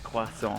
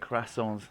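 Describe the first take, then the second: First: It is pronounced the French way. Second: It is pronounced the English way. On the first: The speaker calls it right. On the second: The speaker calls it wrong.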